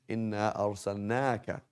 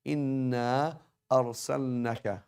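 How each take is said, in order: First: "أرسلناك" with "نا" held long; long alif vowel. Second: "أرسلناك" with a short "na" before the kaf; dropped long vowel. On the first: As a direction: stretch the aa in "أرسلناك". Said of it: "ناك as opposed to نك". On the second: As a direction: cut the alif short in "أرسلناك". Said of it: "Dropping that alif, you change the meaning". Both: Shown as a demonstration.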